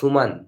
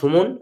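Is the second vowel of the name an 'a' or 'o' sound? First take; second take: a; o. First: The second vowel is a long 'a' sound. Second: The second vowel is an 'o' sound. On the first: This is the English pronunciation. "ইংলিশে হয়" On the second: This is the Bengali pronunciation. "বাংলায় হয়"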